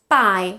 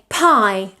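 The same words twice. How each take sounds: First: The p is released without a puff of air. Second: The p is released with a puff of air. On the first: The speaker calls it wrong. "which is what we would say in Spanish" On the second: The speaker calls it right. "We have to produce extra air after the P"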